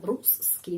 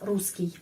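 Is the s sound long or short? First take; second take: long; short. First: The s sound is held long, like double s. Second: The s sound is short, like one s. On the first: The speaker calls it wrong. "Jangan Ruski" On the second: The speaker calls it right. "S aja"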